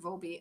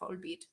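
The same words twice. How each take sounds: First: The name is said without a German pronunciation. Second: The name is said with a German pronunciation. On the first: "I always used to pronounce it Volbeat" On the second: "the German way is Volbeat"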